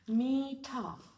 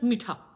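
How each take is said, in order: First: The first vowel is long and drawn out. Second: The first vowel is short and quick. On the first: The speaker calls it right. "Nicely, peacefully, we take a time" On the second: The speaker calls it wrong. "not mitha"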